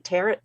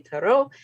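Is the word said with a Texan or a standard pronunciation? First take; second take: Texan; standard. First: It is said with a Texan pronunciation. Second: It is said with a standard pronunciation.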